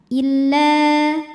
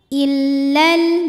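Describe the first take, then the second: First: The final vowel is held long. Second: The final vowel is cut short. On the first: The reciter stops after this word. "dipanjangkan la-nya dua, dua harokat" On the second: The reciter continues into the next word. "jadi pendek ya kalau wasal"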